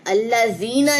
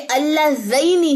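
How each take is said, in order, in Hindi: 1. बीच का स्वर लंबा 'ee' है। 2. बीच का स्वर डिप्थॉन्ग 'ay' है। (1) "अल्लज़ीना नहीं है" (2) "ये अल्लज़ैनी है"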